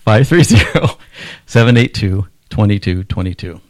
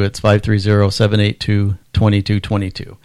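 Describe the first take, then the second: First: The number is said slowly. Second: The number is said at normal speed.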